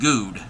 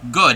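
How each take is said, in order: First: The vowel sounds like the vowel in food. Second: The vowel differs from the vowel in food. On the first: The speaker calls it wrong. "not good" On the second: The speaker calls it right. "G O O D is pronounced good"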